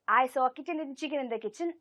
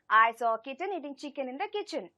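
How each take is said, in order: First: The sentence is spoken at the fastest pace. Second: The sentence is spoken at a faster pace. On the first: "let us increase the pace a little bit more" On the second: "let us try to increase the pace a little bit"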